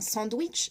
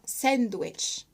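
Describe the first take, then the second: First: It is said with a French accent. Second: It is said with an English accent. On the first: The speaker calls it wrong. "ce n'est pas un sandwich" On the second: The speaker calls it right. "c'est un sandwich. La façon dont il le prononce est différente"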